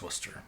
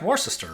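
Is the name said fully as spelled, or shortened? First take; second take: shortened; as spelled. First: The name is said in a shortened, reduced form. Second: Every written letter group is sounded out in full. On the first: The speaker calls it right. "but it's Worcester" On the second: The speaker calls it wrong. "this looks like Worcester"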